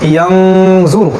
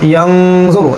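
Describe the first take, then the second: The two takes are said the same way.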